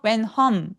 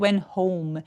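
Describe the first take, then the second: First: The vowel is a plain 'o' with no glide. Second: The vowel glides clearly from 'o' to 'oo'. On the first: The speaker calls it wrong. "아니고" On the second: The speaker calls it right. "우까지 느껴지게 하기"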